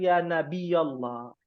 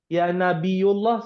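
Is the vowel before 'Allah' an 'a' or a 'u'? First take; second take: a; u. First: The vowel before 'Allah' is an 'a'. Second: The vowel before 'Allah' is a 'u'. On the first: The speaker calls it right. "Yang betul" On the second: The speaker calls it wrong.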